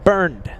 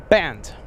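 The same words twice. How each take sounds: First: Burned with an American r-coloured vowel, rhyming with "turned"; American pronunciation. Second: Band for the name, no r, vowel as in "rubber band"; corrected German pronunciation. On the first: Admitting two years of miscalling a viewer, American pronunciation. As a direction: say the name Burned the anglicised American way. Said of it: "a very American way of saying it". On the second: Apologising to the viewer, corrected German pronunciation. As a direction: say Band crisply, the German way for Bernd. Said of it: "I'll say it like that every time".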